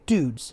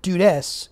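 First: The final E is silent, with one syllable. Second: The final E is sounded as an extra syllable. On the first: The speaker calls it right. "You say dudes. The E is actually silent" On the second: The speaker calls it wrong. "You don't say it dudes"

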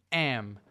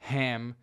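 First: The word begins directly with the vowel, no h. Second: The word begins with an audible h sound.

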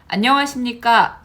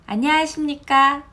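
First: Every vowel and final consonant is clearly articulated. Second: The vowels and final consonants are slurred or dropped. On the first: The speaker calls it right. "라고 해야 하는데" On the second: The speaker calls it wrong. "뭐 이런 식으로 발음을 하는 것"

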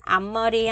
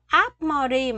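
First: The first syllable ends in a nasal m sound. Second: The first syllable ends in a stop p sound. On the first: The speaker calls it right. "mình sẽ đọc thành 앞머리 ha" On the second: The speaker calls it wrong. "mình không đọc là 앞머리"

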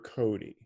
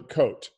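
First: The name is said as two syllables, 'Cody'. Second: The name is said as one syllable, 'Coat'. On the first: This is how the name's owner says it. "So you're Cody" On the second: This is how it is said in Canada and France. "I've been calling you Cote"

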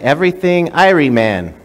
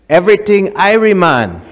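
First: It is said in the speaker's usual plain accent. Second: It is said in a Jamaican accent. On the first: The speaker calls it wrong. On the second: The speaker calls it right. "Say it like this"

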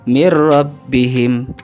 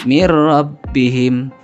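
The two takes are said the same way.

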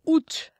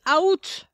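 First: The initial A vowel is left silent. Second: The initial A vowel is pronounced. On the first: The speaker calls it right. "pretend the A isn't there. Say août" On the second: The speaker calls it wrong. "the problem is they want to say out"

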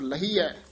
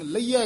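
First: The h sound is clearly pronounced. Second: The h sound is weak or dropped. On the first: The speaker calls it right. "ਹਾਹਾ ਲਾ ਕੇ ਬੋਲਣਾ" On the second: The speaker calls it wrong. "ਇਹ ਆਮ ਪਾਠੀ ਸਿੰਘ ਲਹੀਆ ਕਹਿ ਜਾਂਦੇ ਹਨ"

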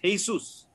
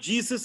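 First: The word starts with an H sound. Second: The word starts with an English J sound. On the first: The speaker calls it right. "in Spanish, it's pronounced as a H" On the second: The speaker calls it wrong. "it's not Jesus in Spanish"

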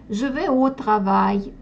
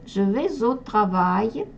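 First: Vais and au are said apart, no z sound. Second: Vais links into au with a z sound. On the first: "Можно без слияния произнести" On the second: "Со слиянием тогда буква S произносится как Z"

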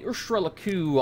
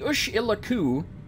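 First: The name is said with an R sound. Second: The name is said without an R sound. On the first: The speaker calls it wrong. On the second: The speaker calls it right.

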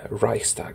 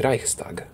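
First: The word is said with an English accent. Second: The word is said with a German accent. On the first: "in an English accent that would be Reichstag or something like that" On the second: "but in a German it would be Reichstag"

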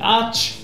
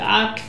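First: The name ends in a ch sound. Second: The name ends in a k sound. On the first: "dann sagen Leute die Arch" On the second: "es gibt Leute, die sagen die Ark"

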